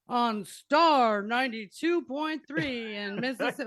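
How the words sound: It is said in a put-on radio DJ voice.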